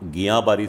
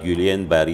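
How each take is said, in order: First: The first word sounds like 'giya', ending 'baari'. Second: The first word sounds like 'gyulian', ending 'barry'. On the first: This is how doctors have always said it. The speaker calls it right. "याचा उच्चार हा गिया बारी syndrome असा आम्ही पहिल्यापासून करतो" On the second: This is how the media says it. The speaker calls it wrong. "या नावाने सगळीकडं लोक सगळीकडं मीडियामध्ये जे सांगितलं जातं आहे"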